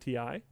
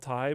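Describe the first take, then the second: First: It is said as two separate spelled letters. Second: It is said as one word rhyming with tie. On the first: "saying T I" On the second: "they always want it called Thai"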